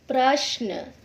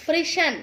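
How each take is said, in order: First: प्रश्न as prashn, sh joined to n; correct प्रश्न. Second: प्रश्न short as pri-shan; mispronounced प्रश्न. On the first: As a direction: say प्रश्न with an a after pr. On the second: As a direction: put i after pr and a before n in प्रश्न. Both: Shown as a demonstration. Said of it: "जिनका हम गलत उच्चारण".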